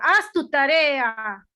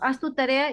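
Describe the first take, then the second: First: It is said loudly and harshly. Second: It is said calmly at normal volume.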